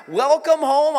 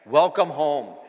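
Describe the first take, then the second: First: High rising welcome home, welcome lifted. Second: Low settled welcome. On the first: Greeting newcomers, a high rising welcome. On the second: Repeating the welcome to newcomers, low and falling. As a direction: Welcome home dropped low with a falling close. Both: Shown as a demonstration. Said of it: "I'll say it again".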